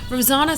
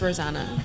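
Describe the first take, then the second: First: The name is pronounced in a posh-sounding way. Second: The name is pronounced in a plain, everyday way. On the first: This is an alternative version that sounds upper-class. "Rosanna sounds very posh" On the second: This is how the name is actually said. "it's Rosanna"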